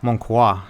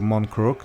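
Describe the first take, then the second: First: The name is said with a French pronunciation. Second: The name is said with a non-French pronunciation. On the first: The speaker calls it right. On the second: The speaker calls it wrong.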